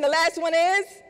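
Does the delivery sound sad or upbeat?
upbeat. The phrase is said in a brighter, upbeat way. The speaker calls it right. "Let's try it again"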